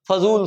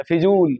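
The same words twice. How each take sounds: First: फजूल with a short a after फ; teacher modelling फजूल; correct form. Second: फिजूल with an i after फ; teacher naming the error फिजूल; wrong form. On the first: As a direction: say फजूल as fa-zool. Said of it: "फजूल शब्द है". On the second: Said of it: "फिजूल होता ही नहीं है". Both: Shown as a demonstration.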